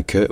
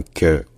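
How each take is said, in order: First: "que" formé contre le palais, presque kyeu; K palatal. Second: "que" formé au fond de la bouche; K vélaire. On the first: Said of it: "au niveau du palais". (« que » palatal) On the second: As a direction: reculer la langue pour "que". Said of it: "un que au fond de la bouche". (« que » au fond de la bouche) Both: Shown as a demonstration.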